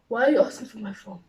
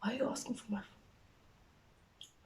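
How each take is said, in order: First: Louder, insistent question; voiced protest. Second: Hushed, slow and higher; timid question. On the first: Daughter questioning mom about the phone, insistent protest. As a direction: push the "Why" out loudly. Same question repeated more firmly. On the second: Retold or imitated. Daughter with uncleared chats asking mom, timid hush. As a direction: ask it softly, very carefully.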